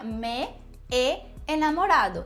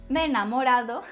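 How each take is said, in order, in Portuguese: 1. Os dois sons do E são ditos separadamente. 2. Os dois sons do E se fundem em um só.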